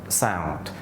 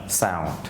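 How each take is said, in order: No difference in how they are said.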